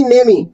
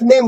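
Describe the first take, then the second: First: नेमी with an extra ee at the end; final E wrongly sounded. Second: नेम as one syllable ending on M; silent final E. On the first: Teacher showing the mistake, नेमी with E voiced. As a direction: add a second syllable, नेमी. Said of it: "नेम ही नहीं बोलता". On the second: Teacher correcting learners, नेम with silent E. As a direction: stop नेम on the M, no ee. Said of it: "ई silent होता है". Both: Shown as a demonstration.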